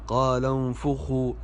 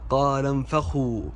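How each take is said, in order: First: The f is followed by a u vowel. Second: The f is followed by an a vowel. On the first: The speaker calls it right. "الفاء مضمومة وليست مفتوحة" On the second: The speaker calls it wrong. "البعض يقول"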